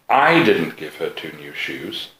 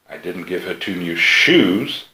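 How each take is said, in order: First: The word "I" carries the main stress. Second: The word "shoes" carries the main stress. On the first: Someone else gave her the shoes. "She's got two new shoes, but they didn't come from me" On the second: What she received was not shoes. "She's got something, and they came from me, but they're not shoes"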